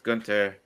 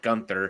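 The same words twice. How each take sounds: First: The middle sound is a plain t. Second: The middle sound is a th sound. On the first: The speaker calls it right. "I'm I'm saying it the correct way" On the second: The speaker calls it wrong. "not Gunther"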